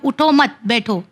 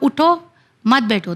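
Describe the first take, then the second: First: There is a pause after the second word. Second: There is a pause after the first word.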